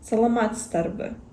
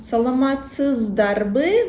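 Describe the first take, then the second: First: The middle z is devoiced and reduced. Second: The middle z is fully voiced and clear. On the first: It is how native speakers actually say it. The speaker calls it right. "вот это з, она оглушается" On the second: It is said carefully, exactly as written. The speaker calls it wrong. "если мы говорим четко, внятно, как написано"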